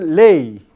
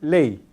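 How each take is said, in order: First: The final glide is long and strong like a vowel. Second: The final glide is short and weak after the vowel. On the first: The speaker calls it wrong. "Nunca se pronuncia así" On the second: The speaker calls it right. "siempre se pronuncia la semivocal más breve que la vocal"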